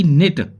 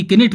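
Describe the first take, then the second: First: निट starting straight on n; silent k. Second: किनिट with an extra ki before the n; wrong, k sounded. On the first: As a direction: say निट as nit, no k. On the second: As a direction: say किनिट as ki-nit. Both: Shown as a demonstration. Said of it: "ना कि किनिट बोलेंगे".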